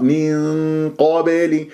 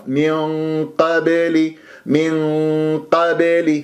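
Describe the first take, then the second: First: من قبل slow, light nasal hum then heavy q; thin ghunnah, heavy qāf. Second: من قبل slow, thick hum then light q; heavy ghunnah, thin qāf. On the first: Teacher imitates some reciters, thin nasal then heavy qāf. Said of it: "والبعض يجيب الغنة مرققة". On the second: Teacher imitates a mistake, heavy nasal then thin qāf. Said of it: "غنة مفخمة ويرقق القاف". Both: Shown as a demonstration.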